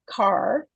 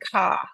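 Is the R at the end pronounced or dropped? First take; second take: pronounced; dropped. First: The final R is pronounced. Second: The final R is dropped, ending in ah.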